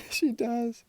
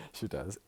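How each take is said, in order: First: High, loud, laughing confirmation. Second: Said in the usual way. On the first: Real, not acted. Gossiping about your mum, laughing. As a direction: laugh right into the words.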